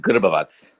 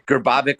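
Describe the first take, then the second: First: The surname is said with its native sounds. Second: The surname is said with anglicized English sounds. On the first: "the actual pronunciation" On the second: "would be the English way to say it"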